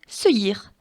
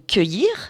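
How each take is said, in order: First: The word begins with an S sound. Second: The word begins with a K sound. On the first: The speaker calls it wrong. "si je n'avais pas le U, ça ferait seuillir" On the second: The speaker calls it right. "je veux que ça fasse K"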